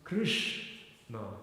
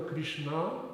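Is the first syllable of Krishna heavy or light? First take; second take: heavy; light. First: The first syllable is heavy and emphasized. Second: The first syllable is light, not emphasized. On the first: The speaker calls it right. "Ri is uh, is Guru" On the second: The speaker calls it wrong. "it's never Krishna"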